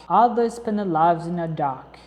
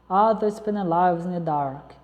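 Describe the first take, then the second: The two takes are said the same way.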